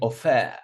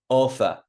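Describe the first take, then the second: First: The stress is on the second syllable. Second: The stress is on the first syllable. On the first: The speaker calls it wrong. "I'm not saying offer" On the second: The speaker calls it right. "Offer on the first syllable"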